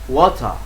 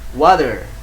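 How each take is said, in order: First: British accent, with the final R dropped. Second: American accent, with the final R clearly pronounced. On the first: "Kalau di Inggris" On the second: "Water itu di Amerika"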